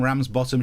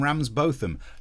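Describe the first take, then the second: First: The ending is said like 'bottom'. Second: The ending is said like 'bothum'. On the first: This is the way northerners pronounce the name. The speaker calls it right. "No, they're not" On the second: This is the way posh people pronounce the name. The speaker calls it wrong. "Posh people think that their surnames are pronounced ... Ramsbotham"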